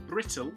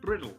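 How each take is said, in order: First: The middle consonant is a crisp T sound. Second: The middle consonant is a soft D sound.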